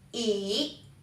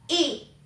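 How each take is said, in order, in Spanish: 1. El tono baja y luego sube. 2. El tono cae bruscamente desde alto. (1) "descendente ascendente"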